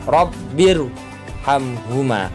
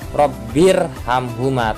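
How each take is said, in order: First: The r is pronounced thick and heavy. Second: The r is pronounced thin and light. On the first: The speaker calls it right. "contoh bacaan ro yang tafhim" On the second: The speaker calls it wrong. "tidak boleh dibaca robbir hamhuma"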